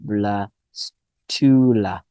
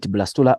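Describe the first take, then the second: First: "blastula" drawn out slowly in separate syllables. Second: Said in the usual way. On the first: Shown as a demonstration. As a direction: sound out "blastula" slowly so students remember it. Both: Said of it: "Make sure that you know".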